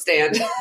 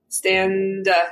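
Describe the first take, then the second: First: The ending of the word is said plainly. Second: The ending of the word is strongly emphasized. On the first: "you can just call it" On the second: "really emphasizing the last syllable"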